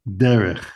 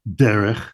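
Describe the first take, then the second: The two takes are said the same way.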